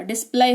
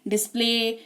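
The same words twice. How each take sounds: First: डिस्प्ले said wrongly as "dis-plai", rhyming with "eye"; mispronounced with Y. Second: Said in the usual way. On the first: Shown as a demonstration. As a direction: end डिस्प्ले on an "eye" sound. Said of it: "ऐसा नहीं हो रहा है". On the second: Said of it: "ऐसे उच्चारण हो रहा है".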